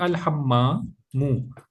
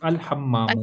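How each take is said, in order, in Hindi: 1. शब्द के आखिर में एक अतिरिक्त n की आवाज़ है। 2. शब्द एक छोटे u स्वर पर खत्म होता है। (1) "तनवीन नहीं आ सकती" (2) "अल लगा है इसलिए पेश आएगा"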